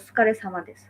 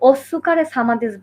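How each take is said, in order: First: The su syllable is nearly dropped. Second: The su syllable is fully pronounced. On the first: The speaker calls it right. "সুটা আরকি ডিরেক্ট উচ্চারণ হবে না" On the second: The speaker calls it wrong. "ওইটা কিন্তু আসলে ওস্সুকারে সামাদিস না"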